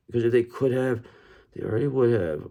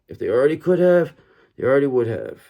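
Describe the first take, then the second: First: Said in the usual way. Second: Louder, pressing each word home; emphatic repeat. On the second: Shown as a demonstration. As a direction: say it again with more force. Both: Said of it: "I wanna say it once more".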